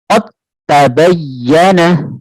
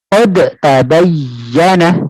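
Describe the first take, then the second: First: The d is held without an echoing release. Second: The d is released with an echoing bounce. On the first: The speaker calls it right. "ini tidak usah dimantulkan" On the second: The speaker calls it wrong. "Kalau sini dipantulkan ... Nah, tidak"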